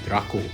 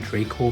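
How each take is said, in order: First: The name is pronounced as a Latin word is said. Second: The name is pronounced as the movie fans say it. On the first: The speaker calls it right. "if you pronounce a Latin word this way, it should be Draco" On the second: The speaker calls it wrong. "they pronounce Draco because they keep calling him Draco Malfoy"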